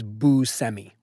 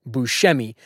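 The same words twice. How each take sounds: First: Buscemi with an S, boo-SEM-ee; Buscemi, plain S and no SH; anglicized pronunciation. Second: Buscemi with a SH, boo-SHEM-ee; Buscemi, SH for the middle consonant; Sicilian pronunciation. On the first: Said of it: "But the anglicized version is". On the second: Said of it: "it was actually pronounced". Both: Shown as a demonstration.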